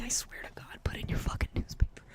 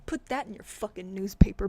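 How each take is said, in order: First: Fast whispered threat; rapid whispered threat; menacing whisper. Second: Said in the usual way. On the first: Acted. Taunting the newspaper.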